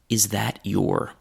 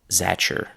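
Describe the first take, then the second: First: Every word is said fully, your with long vowel. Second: T and y merge into ch, giving zatcher. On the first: This is the most formal form. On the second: This is the most casual form.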